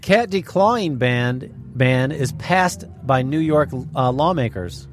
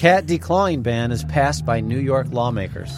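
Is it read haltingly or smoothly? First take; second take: haltingly; smoothly. First: It is read haltingly with pauses and repeats. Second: It is read smoothly all at once.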